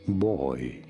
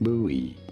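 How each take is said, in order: First: It is said as one syllable, like 'boy'. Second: It is said as two syllables, like 'boo-ee'. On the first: "In British English, this is said as boy" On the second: "In American English, however, it is normally said as buoy"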